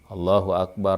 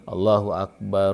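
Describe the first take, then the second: First: Akbar ends with a stop and no vowel. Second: Akbar ends with a u vowel, linked on. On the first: "Maka tetap disunnahkannya disukunkan" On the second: "maka yang paling fasih didomahkan"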